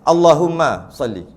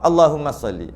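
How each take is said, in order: First: There is a pause after Allahumma. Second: Allahumma runs straight into salli. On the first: "Sebab kalau berhenti settle" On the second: "Kalau nak sambung"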